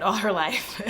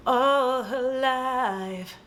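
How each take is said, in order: First: Said in the usual way. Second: Mock-epic, each word held long; drawn-out melodrama. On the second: Storyteller hamming up the long-awaited moment, drawn-out melodrama. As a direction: stretch it out very slowly. Dramatic build-up in retold plot.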